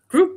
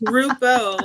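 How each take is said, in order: First: It is said like the English word group. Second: It is said with Italian sounds, two syllables. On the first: The speaker calls it wrong. "I was going to say it wrong" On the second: The speaker calls it right. "I'm going to use my Italiano and say gruppo"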